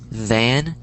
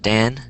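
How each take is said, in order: First: The word begins with a soft TH sound. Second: The word begins with a hard D sound. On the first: The speaker calls it right. "but it's the" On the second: The speaker calls it wrong. "That's how people are pronouncing it"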